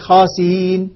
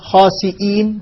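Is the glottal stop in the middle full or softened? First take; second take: softened; full. First: The glottal stop is softened and eased. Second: The glottal stop is pronounced fully.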